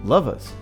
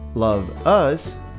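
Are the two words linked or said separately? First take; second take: linked; separate. First: The two words are joined into one. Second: The two words are said separately.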